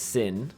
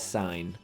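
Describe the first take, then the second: First: The vowel is short, as in 'bit'. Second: The vowel is long, as in 'bite'. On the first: The speaker calls it wrong. "it's not going to be pronounced sin" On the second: The speaker calls it right. "we pronounce that as sine"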